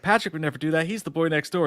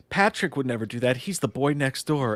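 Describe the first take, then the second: First: Lightly voiced Evelyn, pitched up a bit; a hint of a prim girlfriend, repeated; Evelyn's voice. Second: A hint of a prim girlfriend; Evelyn's voice. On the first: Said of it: "she's like". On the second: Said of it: "Evelyn's like".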